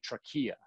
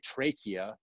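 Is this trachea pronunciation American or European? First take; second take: European; American. First: It is said with the European pronunciation. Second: It is said with the American pronunciation. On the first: "if you go over to Europe, they say trachea" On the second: "We say trachea here in the States"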